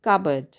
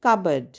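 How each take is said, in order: First: The P sound is silent in the middle. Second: The same.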